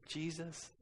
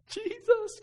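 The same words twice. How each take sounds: First: Said in the usual way. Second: Put-on high, loud wail of a crying toddler; imitated crying. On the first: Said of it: "the whole way home say". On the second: Bawling daughter repeats the prayer after dad, crying. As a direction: imitate a bawling child struggling to get the word out. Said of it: "crying, barely could say Jesus".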